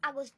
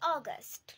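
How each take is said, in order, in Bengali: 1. এটি বাংলা ঘরানার ইংরেজি উচ্চারণে বলা হয়েছে। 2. এটি ব্রিটিশ ইংরেজি উচ্চারণে বলা হয়েছে। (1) "আমরা ইংরেজিতেও অনেকেই আগস্ট বলে থাকি" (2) "ব্রিটিশ প্রনাউন্সিয়েশন হবে অগস্ট"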